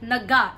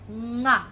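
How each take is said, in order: First: A vowel is inserted between n and g. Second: The ng sound is joined directly to a. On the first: The speaker calls it wrong. "It's not naga" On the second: The speaker calls it right. "It's nga"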